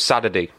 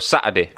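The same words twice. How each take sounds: First: The middle t sound is said like a d. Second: The middle t sound is left out. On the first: "I started pronouncing my T's as D's" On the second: "you don't pronounce your T's"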